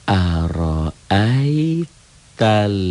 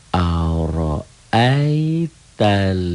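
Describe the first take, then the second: The two takes are said the same way.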